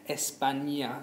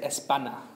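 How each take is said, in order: First: The middle consonant is an ny sound. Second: The middle consonant is a plain n. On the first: The speaker calls it right. "it's almost as if you're putting a Y in there as well" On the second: The speaker calls it wrong. "we need to be careful we don't say"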